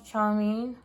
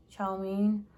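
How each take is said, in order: First: "chow mein" with a sh sound, not ch; unsure pronunciation. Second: "Chow mein" with a clear ch, "chow"; "Chow mein", hard ch start, "chow"; corrected pronunciation. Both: Shown as a demonstration. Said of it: "I don't know how to pronounce it".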